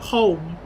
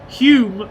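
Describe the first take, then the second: First: The word rhymes with 'roam'. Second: The word rhymes with 'fume'. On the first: The speaker calls it wrong. "I always pronounced it home" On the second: The speaker calls it right. "Hume, the L is silent"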